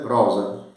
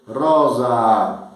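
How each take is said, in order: First: Rosa said quickly, with a short clipped O; teacher contrasts the short-O rosa with the long one; short first vowel. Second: Rosa said with the O held out long; teacher demonstrates the old long-O rosa to the class; long first vowel. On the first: Rosa with a brief O. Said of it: "rosa com acento breve". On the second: Rosa with a lengthened O. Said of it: "como dizer rosa". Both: Shown as a demonstration.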